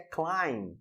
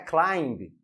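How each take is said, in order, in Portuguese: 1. A palavra termina em m, sem som de b. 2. A palavra termina com um som de b audível. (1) "a pronúncia correta aqui é climb" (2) "não é climb"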